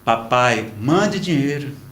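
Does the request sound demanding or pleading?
pleading. It is said in a soft, pleading tone. The son is kindly asking for help. "não foi assim que ele escreveu. Ele disse assim"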